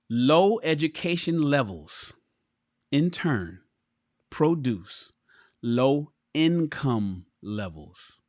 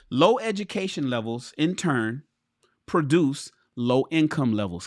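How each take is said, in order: First: It is read more slowly. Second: It is read at a normal pace.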